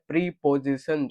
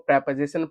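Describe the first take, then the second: First: The first syllable has a long 'ee' vowel. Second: The first syllable has a short 'e' vowel. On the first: The speaker calls it wrong. "इसको बच्चे पढ़ते हैं प्रीपोजिशन, जो कि गलत है" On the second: The speaker calls it right. "इसको प्रेपोजिशन पढ़ेंगे"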